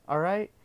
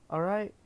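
No difference in how they are said.

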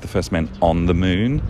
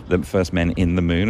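First: "on" picked out as the contrasting word; stress on ON. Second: "in" picked out as the contrasting word; stress on IN. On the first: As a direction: lean on the word "on". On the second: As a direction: lean on the word "in". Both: Shown as a demonstration. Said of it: "as opposed to".

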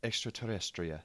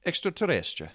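First: Softly attempted Spanish pronunciation; Spanish accent. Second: Higher, lilting attempt at Spanish that turns Italian; Italian-sounding accent. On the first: Co-host attempts extraterrestrial in Spanish, quiet Spanish accent. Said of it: "what's extraterrestrial in Spanish". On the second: Co-host retries the Spanish word, comes out Italian-accented. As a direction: give it a sing-song Italian accent. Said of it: "That was more Italian". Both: Shown as a demonstration.

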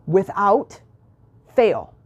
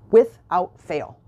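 First: Dramatic pause before "fail"; split by pause. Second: "Without fail" said slowly, each word weighted; slow, firm "Without fail"; slow emphatic. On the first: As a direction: hold a beat between "Without" and "fail". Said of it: "same phrase split by pause". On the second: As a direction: lean on "Without fail" deliberately. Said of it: "emphatic repeat of phrase". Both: Real, not acted.

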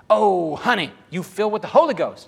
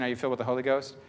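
First: Put-on higher, louder gushing old lady; crazy grandma. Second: Said in the usual way. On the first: Crazy grandma phones [name] before his mission, gushing loudly. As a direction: exclaim it like an excited grandma on the phone. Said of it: "she calls me up". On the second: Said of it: "as soon as she asked the question".

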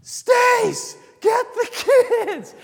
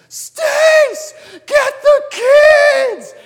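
First: High, loud calling shout; echoing warning shout across the woods; urgent shout. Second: High, piercing panicked scream; desperate yelling call from far away. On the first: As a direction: call out to warn them of danger. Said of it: "lovingly screaming and calling us". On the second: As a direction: scream it across the woods to warn them. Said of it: "screams like I've never heard her scream before". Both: Retold or imitated.

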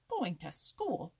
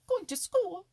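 First: Slow, loud, incredulous echo; mocking exclamation. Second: Very high, loud, incredulous cry; mocking exclamation. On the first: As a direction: echo it slowly in mock disbelief. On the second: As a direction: shoot up high and loud in ridicule. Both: A narrator's reading. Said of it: "exclaimed Happy Jack".

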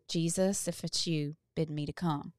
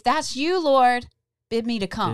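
First: Soft, hushed plea; quiet afraid prayer. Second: Loud, raised plea to the Lord; loud pleading prayer; bold prayer. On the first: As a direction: say it softly, almost to yourself. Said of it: "do it afraid and say". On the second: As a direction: call out boldly like Peter. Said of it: "I wanna say". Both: Pretend.

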